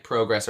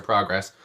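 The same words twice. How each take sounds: First: Progress said PROH-gress; pronunciation variant. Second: Progress said PRAH-gress; pronunciation variant. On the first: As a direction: say progress with a long "oh". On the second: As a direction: say progress with an open "ah". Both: Shown as a demonstration. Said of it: "I did get it right".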